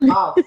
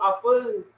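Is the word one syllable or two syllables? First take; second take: one syllable; two syllables. First: It is said as one short syllable, af. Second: It is said as two syllables, like aful. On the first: The speaker calls it right. "cara bacanya A sama F aja. Af" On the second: The speaker calls it wrong. "Bukan aful aful"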